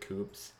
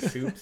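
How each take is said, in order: First: The name begins with a K sound. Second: The name begins with an S sound. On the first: This is how the name's owner says it. "I pronounce it Coops" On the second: This is how other people usually say the name. "Usually people have pronounced it Soups"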